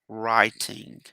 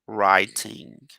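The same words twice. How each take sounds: Both takes have the same delivery.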